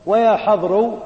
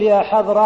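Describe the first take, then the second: First: "يا حضر" with the last letter closed on a u vowel; "يا حضر" model in the second dialect, u on the last letter; ending as final. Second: "يا حضر" with the final letter keeping its original vowel; "يا حضر" model in the first dialect, last vowel unchanged; ending kept. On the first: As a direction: say "يا حضر" ending in u, as if nothing was dropped. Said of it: "على لغة من لا ينتظر". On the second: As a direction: say "يا حضر" as one who expects the dropped part back. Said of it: "على لغة من ينتظر". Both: Shown as a demonstration.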